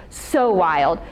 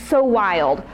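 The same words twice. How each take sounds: No difference in how they are said.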